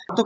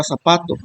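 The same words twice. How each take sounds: First: "Zapato" with the opening "Za" made most prominent; stress on first syllable. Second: Said in the usual way. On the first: Shown as a demonstration. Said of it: "se escucha más fuerte que las demás".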